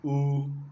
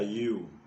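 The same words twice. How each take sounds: First: The letter gets its Igbo pronunciation. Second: The letter gets its English pronunciation. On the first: "but in Igbo it is U" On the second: "letter U of English alphabet"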